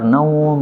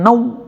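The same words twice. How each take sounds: First: The vowel in the word is held long. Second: The vowel in the word is held short. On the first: The speaker calls it right. "yang benar panjang" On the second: The speaker calls it wrong. "itu salah"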